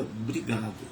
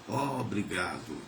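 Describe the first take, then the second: First: The first O is barely voiced. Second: The first O is fully voiced and open. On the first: The speaker calls it wrong. "eu falo o o mais na minha mente do que propriamente sonoramente" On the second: The speaker calls it right. "esse O bem aberto"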